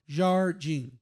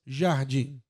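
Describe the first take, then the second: First: The R sound is pronounced strongly. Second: The R sound is not pronounced. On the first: This is how people in the center-west say it. "they say the R like heavily" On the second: This is how people in the southeast say it. "we don't pronounce the R's"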